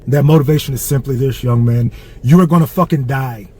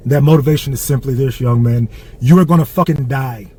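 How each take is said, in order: Both takes have the same delivery.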